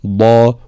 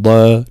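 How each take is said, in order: First: ضا fully emphatic and heavy, slow; correct dad. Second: ضا said light and thin; wrong dad. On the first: Teacher shows students the heavy ضا. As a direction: say ضا with full heaviness. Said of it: "تكون مفخمة تفخيما كاملا". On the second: Teacher shows students the wrong light ضا. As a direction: say ضا without full emphasis. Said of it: "لا نقول". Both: Shown as a demonstration.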